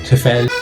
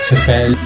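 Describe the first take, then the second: First: The name is said with an anglicized vowel. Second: The name is said with an anglicized vowel.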